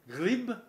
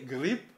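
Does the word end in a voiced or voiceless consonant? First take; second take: voiced; voiceless. First: The final consonant is voiced, a b sound. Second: The final consonant is voiceless, a p sound. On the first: The speaker calls it wrong. "Pardon, je recommence" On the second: The speaker calls it right. "Ils sont homophones"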